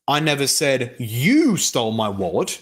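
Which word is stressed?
you. The word 'you' carries the main stress. Someone else stole the wallet, not the listener. "in the second one, you're denying that you said that person stole your wallet, but someone else did"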